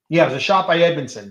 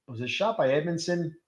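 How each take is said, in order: First: "Yeah, it was a shot by Edmondson." louder, sure, falling; confident answer. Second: "Was it a shot by Edmondson?" asked softly, unsure; unsure question. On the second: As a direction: ask "Was it a shot by Edmondson?" quietly, doubting. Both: Real, not acted.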